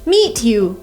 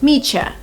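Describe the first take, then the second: First: Meet and you are said as separate words. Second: The words merge into a single sound, meetcha.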